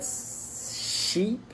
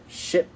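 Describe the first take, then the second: First: Sheep with a long, higher-pitched I. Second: Ship with a brief I; short I. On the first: Teacher contrasting two words for a learner, sheep with long I. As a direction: stretch the vowel in sheep. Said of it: "c'est un I long". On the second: Teacher contrasting two words for a learner, ship with short I. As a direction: keep the vowel in ship short and quick. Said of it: "c'est un I court". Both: Shown as a demonstration.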